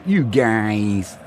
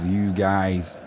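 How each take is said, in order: First: A light American twang on "You guys."; American accent. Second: Said in the usual way. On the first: Retold or imitated. Reading out a viewer's message, trying an American accent. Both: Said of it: "Is that in an American accent?".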